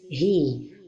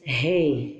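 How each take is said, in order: First: The vowel after the h sounds like 'ee'. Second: The vowel after the h sounds like 'ay'. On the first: The speaker calls it right. "The right pronunciation is he" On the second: The speaker calls it wrong. "Don't say hey"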